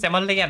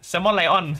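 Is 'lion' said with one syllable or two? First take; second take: one; two. First: Lion is squeezed into one syllable, 'lian'. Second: Lion is said in two syllables, 'lai-on'. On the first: "ทำไมเราอ่านเป็นแซมมอนเลียน" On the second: "ทำไมไม่เป็นแซมมอนไลออน"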